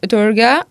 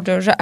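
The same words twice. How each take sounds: First: Durga with a hard g; first variant of "Durga", g as in go; alternative pronunciation. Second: Second variant of "Durga", g softened as in genre; alternative pronunciation. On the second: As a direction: say "Durga" as DOR-zha. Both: Shown as a demonstration. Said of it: "the right pronunciation for it".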